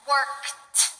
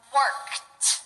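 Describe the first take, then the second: First: The ending is a short T sound. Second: The ending is a short T sound.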